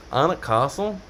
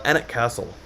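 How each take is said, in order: First: Anik Castle with British broad "ah" vowels, rising as a question; British accent, long open A in both "Anik" and "Castle"; British-accented place name. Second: Said in the usual way. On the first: Shown as a demonstration. Retries name in British-style pronunciation.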